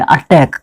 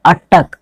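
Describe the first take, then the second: First: "अटैक" ending in -taik, the form being corrected; "अटैक" with second syllable like English "tack"; wrong pronunciation "अटैक". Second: "अटैक" ending in -tak, not -taik; taught pronunciation "अटक". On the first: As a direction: say "अटैक" with an open "ai" vowel, as at-TAIK. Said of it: "इसको अटैक नहीं बोलना है". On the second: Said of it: "अटैक बोलना है". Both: Shown as a demonstration.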